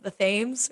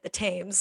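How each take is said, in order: First: The name is said a non-British way. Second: The name is said the British way. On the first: "instead of the Thames" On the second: "like the British accent way when they say like the Thames"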